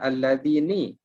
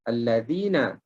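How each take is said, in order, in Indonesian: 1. Kata ini berakhir dengan vokal 'i'. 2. Kata ini berakhir dengan vokal 'a'. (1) "Tetapi kita tak baca baris bawah. Kita tak baca alladhini" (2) "Tetapi kita baca alladhina. jadi na ni bukan baris bawah"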